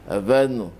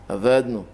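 Both takes have the same delivery.

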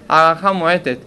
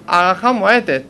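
No difference in how they are said.

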